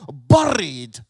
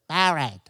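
First: It is said in a Scottish accent. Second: It is said in an English accent.

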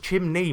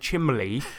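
First: The middle consonant is pronounced as an N. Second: The middle consonant is pronounced as an L. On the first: The speaker calls it right. "Ryan, it's chimney, mate" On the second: The speaker calls it wrong. "he kept on saying chimley"

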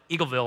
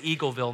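First: The parts of the name are crammed together. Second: Each part of the name is said fully. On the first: This is how local listeners say the name. "not Eagleville, or however you guys cram it together" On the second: This is how the speaker says the name. "I say Eagleville"

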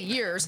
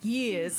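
First: The R at the end is pronounced. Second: The R at the end is dropped. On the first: "He didn't say years" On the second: "Anytime you don't pronounce the R in it"

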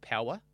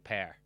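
First: The r sound is not pronounced. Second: The r sound is clearly pronounced.

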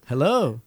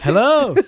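First: It is said at a quieter volume. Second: It is said somewhat louder.

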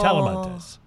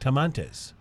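First: The name is said with the 'la' syllable. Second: The name is said without the 'la' syllable. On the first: The speaker calls it right. "instead of Talamantes" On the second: The speaker calls it wrong. "I left the L out"

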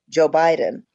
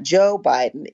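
First: The stress falls on the word Biden. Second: The stress falls on the word Joe. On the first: The speaker calls it right. "put the emphasis on Biden" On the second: The speaker calls it wrong. "It's not Joe Biden"

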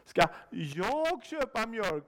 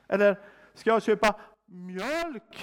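First: The stress falls on the word jag. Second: The stress falls on the word mjölk. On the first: Someone else could do it instead. "Kan ingen annan göra det?" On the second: Perhaps something other than milk is needed. "Är det inte juice jag ska köpa?"

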